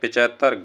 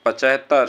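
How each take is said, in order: First: The first vowel is a short i sound. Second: The first vowel is a short a sound. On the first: The speaker calls it wrong. "गलत है" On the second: The speaker calls it right. "शुद्ध है"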